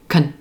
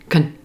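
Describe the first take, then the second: First: A quick, reduced syllable with an 'uh' vowel. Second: The same.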